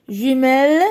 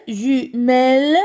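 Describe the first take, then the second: First: Said in the usual way. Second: "Jumelle" as ju, pause, melle; syllable split. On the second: Shown as a demonstration. Teacher locates the second syllable, "Jumelle" split in two. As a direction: break "Jumelle" into two beats. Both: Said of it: "Deuxième syllabe".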